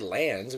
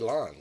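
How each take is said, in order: First: The vowel sounds like the one in 'hand'. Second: The vowel sounds like the one in 'lawn'. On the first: The speaker calls it wrong. "we don't say lands" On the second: The speaker calls it right. "we say lawns"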